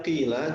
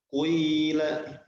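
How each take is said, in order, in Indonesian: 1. Vokal pertama adalah i biasa. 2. Vokal pertama memadukan i dengan u yang dibulatkan. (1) "Asalnya qila" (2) "jadi kuila, mencampurkan suara ... kasrah dengan dhammah"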